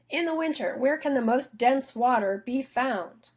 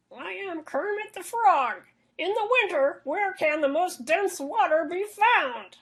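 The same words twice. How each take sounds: First: Lighter frog voice. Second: High, slow puppet frog voice; Kermit the Frog voice. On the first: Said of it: "answer his question". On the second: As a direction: squeeze it up into a slow cartoon frog. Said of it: "me doing a Kermit the Frog voice". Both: Acted.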